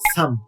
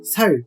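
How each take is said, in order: First: The word ends with an m sound. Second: The word ends with an l sound. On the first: The speaker calls it right. "サムと読み" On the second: The speaker calls it wrong. "サルではなく"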